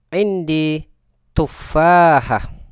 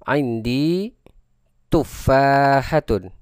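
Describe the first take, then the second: First: The last word stops short with a final 'h'. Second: The last word ends with a full '-tun' ending.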